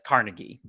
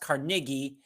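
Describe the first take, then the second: First: The name is said the common American way. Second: The name is said the original Scottish way. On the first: This is how many Americans say the name. "a lot of Americans pronounce it as Carnegie" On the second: This is how the name was said in its original Scottish form. "also pronounced Carnegie, uh, as he was originally Scottish"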